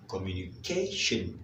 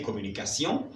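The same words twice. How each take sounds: First: It is said with English pronunciation, ending in shun. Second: It is said with French pronunciation, ending in sion. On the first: "communication en anglais, ça sera communication" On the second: "on prononce en français communication"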